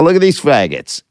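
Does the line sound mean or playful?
playful. It is said in a light, playful way. The insult is meant ironically as a joke. The speaker calls it right. "when I'm really killing"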